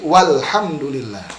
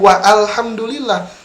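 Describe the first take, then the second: First: Wa links straight into 'l' with no vowel. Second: Wa is followed by a separate 'a' vowel. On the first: The speaker calls it right. "tetapi walhamdulillah" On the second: The speaker calls it wrong. "bukan wa alhamdulillah"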